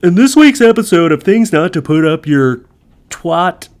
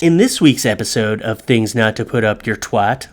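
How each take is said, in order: First: Loud, higher announcer intro; hyped show intro. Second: Plain read of the show intro; first take of intro. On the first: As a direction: announce the show title with big energy. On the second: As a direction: read the title through, low-key. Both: Shown as a demonstration. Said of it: "let me do this again".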